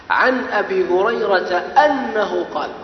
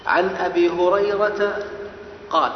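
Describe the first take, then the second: First: أنه added, slow and raised, the phrase carefully spelled out; stress on أنه. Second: Said in the usual way. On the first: Shown as a demonstration. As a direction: bring out أنه slowly and clearly. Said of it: "ولكن كلمة أنه". (أنه بتأنٍّ وارتفاع) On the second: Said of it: "هذه فيها كلمة محذوفة".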